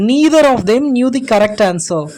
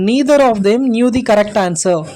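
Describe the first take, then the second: Both takes have the same delivery.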